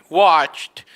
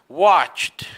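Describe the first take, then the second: The two takes are said the same way.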